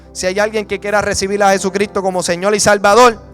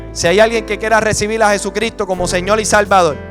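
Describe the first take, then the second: The two takes are said the same way.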